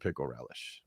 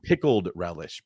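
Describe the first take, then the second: First: The first word ends without a 'd' sound. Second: The first word ends with a 'd' sound. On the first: The speaker calls it wrong. "I say it like a kid still" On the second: The speaker calls it right. "Probably that's the right way to say it"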